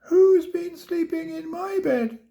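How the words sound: It is squeaked in a tiny, high voice. "he squeaked"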